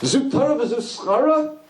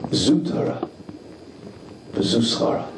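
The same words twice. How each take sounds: First: It sounds like an indignant, protesting question. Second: It sounds like an admiring, wondering statement. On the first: This suffering is an unfair reward for a life of Torah. The speaker calls it wrong. "That's not how to read it" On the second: The challenge itself is the true reward of Torah. The speaker calls it right. "You have to change the inflection"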